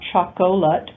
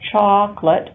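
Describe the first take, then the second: First: The word is said with three syllables. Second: The word is said with two syllables. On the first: The speaker calls it wrong. "not chocolate" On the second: The speaker calls it right. "two syllables, ... but chocolate. The O disappears"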